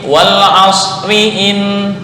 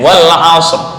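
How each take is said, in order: First: It continues with a vowel, r sounded light. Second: It ends on the r, sounded heavy. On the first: The reading continues into the next word. "ketika lanjut wal asriin, wal asriin tarkik" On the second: The reading stops at this word. "ketika waqaf wal asr, wal asr tafkhim"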